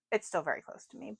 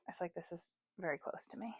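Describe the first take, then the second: First: Said in the usual way. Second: Secretive whisper. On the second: Real, not acted. Whispers then repeats aloud.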